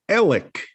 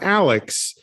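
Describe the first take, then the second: First: The name ends in a plain k sound. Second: The name ends in a ks sound. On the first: This is how locals say the name. The speaker calls it right. "the way you pronounce A L E X is Alec" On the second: This is how outsiders say the name. The speaker calls it wrong. "not Alex"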